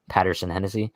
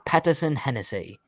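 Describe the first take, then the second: First: It is said in a plain American accent. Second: It is said in a put-on British accent.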